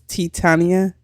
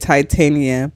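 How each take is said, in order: First: The name does not begin like Titanic. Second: The name begins like the word Titanic. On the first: The speaker calls it right. "but it's Titania?" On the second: The speaker calls it wrong. "I guess I pronounced it thinking it's like Titanic"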